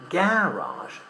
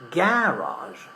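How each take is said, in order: First: The stress is on the first syllable. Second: The stress is on the first syllable.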